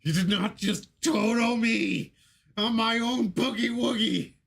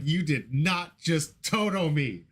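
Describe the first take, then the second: First: Slow, high mock scream; high drawn-out anguished yell; internal scream. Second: Slow disbelief. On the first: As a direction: wail it out like you were robbed. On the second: Retold or imitated. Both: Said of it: "screaming internally".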